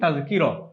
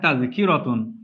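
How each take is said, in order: First: The word ends with a plain 'a' vowel. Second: The word ends with a 'tun' syllable. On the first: This is how it is said in speech. "বলি তাযকিরা" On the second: This is the full written form. "আমরা লিখি এভাবে"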